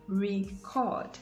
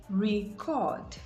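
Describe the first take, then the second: The two takes are said the same way.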